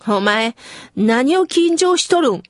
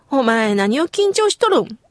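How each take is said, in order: First: Light Kyushu-dialect mother, 何を緊張しとるん said casually; a hint of the mother's Kyushu dialect. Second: Lightly voiced Kyushu mother; Kyushu dialect. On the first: Mother teasing her nervous child, in light Kyushu dialect. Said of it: "九州弁丸出しで". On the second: Remembering the mother's words, mild Kyushu dialect. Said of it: "という九州弁で".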